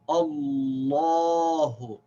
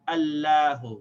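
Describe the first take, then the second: First: The long 'la' vowel is full and heavy. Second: The long 'la' vowel is light and thin. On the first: The speaker calls it right. "pronounced with a full long vowel" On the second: The speaker calls it wrong. "we don't say Allahu"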